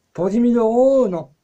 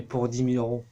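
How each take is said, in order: First: High, loud incredulous repeat; indignant, swooping high exclamation; mock outrage. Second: Said in the usual way. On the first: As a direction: shout it back in exaggerated disbelief. Outraged reply to the offer.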